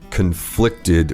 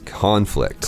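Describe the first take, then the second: First: The stress is on the second syllable. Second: The stress is on the first syllable. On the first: It is used as a verb. "we are putting the stress on the second syllable" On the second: It is used as a noun. "as a noun"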